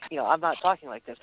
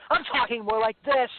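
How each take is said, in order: First: Said in the usual way. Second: Booming stage voice. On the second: Shown as a demonstration. Singer showing his stage talking voice to the hosts. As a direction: boom it out like between songs on stage.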